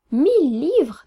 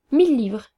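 First: Higher, louder, drawn-out musing question; dreamy questioning. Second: Said in the usual way. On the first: A narrator's reading. Artist pondering the seller's price, dreamy questioning. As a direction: echo it in swooping, wondering tones. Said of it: "demanda l'artiste d'un non rêveur". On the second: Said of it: "dis-je en m'asseyant".

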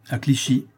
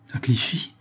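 First: Said in the usual way. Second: Dazed, questioning repeat; mildly bewildered, voice lifting at the end; haggard echo. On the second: A narrator's reading. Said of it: "d'un air hagard".

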